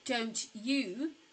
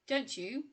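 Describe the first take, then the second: First: The t and y are said separately. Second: The t and y merge into a ch sound. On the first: The speaker calls it wrong. "it's rare for us to say don't you" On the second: The speaker calls it right. "We would often say don't you"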